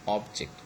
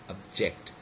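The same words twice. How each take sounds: First: The stress is on the first syllable. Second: The stress is on the second syllable. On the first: It is used as a noun. "this is what it is used as a noun" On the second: It is used as a verb. "the second syllable is stressed instead of the first"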